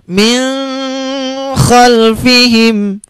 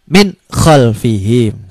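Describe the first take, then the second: First: Min khalfihim sung out very slow, higher, n hummed; a pretty but wrong drawn-out min khalfihim; wrong melodious reading. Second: Min khalfihim slow and lower, n crisp; plain, slow, clean min khalfihim; correct clear reading. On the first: Teacher showing a beautiful but wrong nasal reading. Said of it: "suaranya indah, tapi salah". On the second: Teacher giving the correct clear version. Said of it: "idhar itu bunyinya jelas". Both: Shown as a demonstration.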